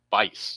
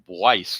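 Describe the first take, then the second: First: No w sound follows the b. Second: A w sound follows the b. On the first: The speaker calls it right. "but it's actually Bice" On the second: The speaker calls it wrong. "I was pronouncing the U and calling him Bwice, like twice"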